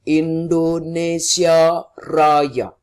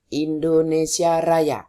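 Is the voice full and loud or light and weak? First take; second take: full; light. First: The voice is full and loud. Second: The voice is light and weak. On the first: The speaker calls it right. "Tapi kita harus punya volume di sini" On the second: The speaker calls it wrong. "Bukan Indonesia Raya. Itu yang keluar suaranya ringan"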